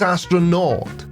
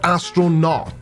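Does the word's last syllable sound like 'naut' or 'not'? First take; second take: naut; not. First: The last syllable sounds like 'naut'. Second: The last syllable sounds like 'not'. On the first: A sailor of space. The speaker calls it right. "it's astronaut, which is derived from the Greek words meaning space sailor" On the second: They have never been in space. The speaker calls it wrong. "It is not astronaut"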